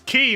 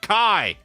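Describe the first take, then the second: First: The name ends in an 'ee' vowel. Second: The name ends in an 'eye' vowel. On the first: The speaker calls it right. "His name is Key" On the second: The speaker calls it wrong. "not Kai"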